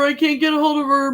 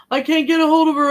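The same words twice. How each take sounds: First: Higher, mock-panicked repeat; retelling a friend's anxious phone call, panicky; freaking out. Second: Higher, louder mock-panicked repeat; retelling a friend's anxious phone call, panicky; freaking out. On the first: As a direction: echo his frantic worry again. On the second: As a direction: imitate his frantic worry. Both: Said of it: "he's freaking out".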